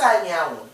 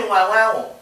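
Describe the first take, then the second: First: Anyanwu said as "ah-NYAH-wu"; correct name pronunciation. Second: Nwanwanwu garbled as "wah-wah-wu"; mispronounced name. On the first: Shown as a demonstration. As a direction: say Anyanwu with a NY glide after the first A. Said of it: "how to pronounce it". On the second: Retold or imitated. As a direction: mangle the name into Nwanwanwu, repeated WAH sounds. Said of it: "I have to correct them".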